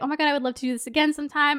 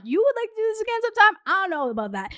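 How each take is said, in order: First: Said in the usual way. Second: High, fast disbelieving question; incredulous echo. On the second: Retold or imitated. Echoing date's offer of another date, incredulous. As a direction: throw it back sharply in disbelief.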